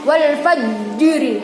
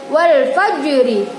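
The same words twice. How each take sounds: First: The consonant bounce is pressed strongly. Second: The consonant bounce is released lightly. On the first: The speaker calls it wrong. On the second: The speaker calls it right.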